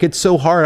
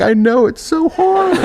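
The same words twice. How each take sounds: First: Mildly mock-tearful, pitched up; imitating crying parents. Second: Very high, slow comic wail; mock crying. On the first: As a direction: retell a tearful parent's lament. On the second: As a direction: wail along in hammed-up self-pity. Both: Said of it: "they're crying".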